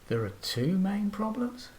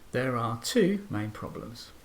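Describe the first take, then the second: First: The pitch rises at the end. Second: The pitch rises and then falls at the end. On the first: The speaker is unsure about what is said. "just a rising intonation" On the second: The speaker is certain about what is said. "I'll give this a rising and falling pitch"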